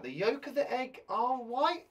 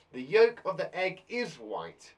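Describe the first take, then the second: First: Trying out "The yolk of the egg are white?" with a doubtful rising question tune, ending up on "white"; testing the wrong option. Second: "The yolk of the egg is white." said firmly, stress on "yolk", falling to a settled end; confident right option. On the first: Teacher tries the wrong answer aloud, doubtful rising. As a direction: sound out the wrong version as if unsure. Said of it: "That doesn't sound right".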